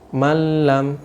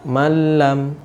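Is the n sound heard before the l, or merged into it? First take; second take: merged; merged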